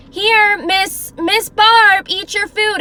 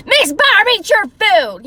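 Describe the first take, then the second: First: High, loud but unangry calling; raised voice, not yelling. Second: High, loud mock yell at someone; mean yelling. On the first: Caregiver calling a client to eat, raised voice. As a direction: raise the voice to be heard, kindly enough. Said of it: "you can tell if someone's like". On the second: Imitating caregiver yelling at a client, mean yell. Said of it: "she was yelling". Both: Shown as a demonstration.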